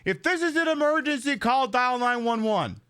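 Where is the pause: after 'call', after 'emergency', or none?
none. The whole line runs together with no pause. "if I literally just say"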